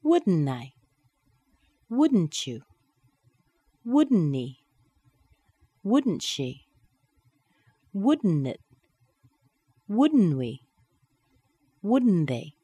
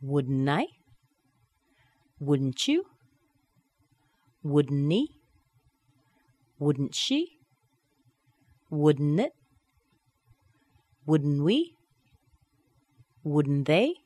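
First: Each "Wouldn't" tag falling to the pronoun; falling intonation. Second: Each "Wouldn't" tag rising on the pronoun; rising intonation. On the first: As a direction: hit "Wouldn't" and drop the last word. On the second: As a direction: lift the last word of every "Wouldn't" question. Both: Shown as a demonstration. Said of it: "And dropping down".

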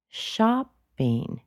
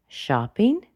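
First: "shopping" high, then dropping sharply; emphatic downturn on "shopping"; falling intonation. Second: "shopping" lifted at the end; unfinished upturn on "shopping"; rising intonation. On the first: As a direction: punch the start of "shopping", drop the end. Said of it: "It goes down rather sharply". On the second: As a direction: let "shopping" climb as if more follows. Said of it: "Is it possible for her to say". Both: Shown as a demonstration.

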